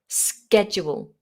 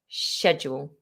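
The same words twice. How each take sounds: First: The word begins with an 'sk' sound. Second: The word begins with an 'sh' sound. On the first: "the American version, which is more of a K sound" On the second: "the purely British English version"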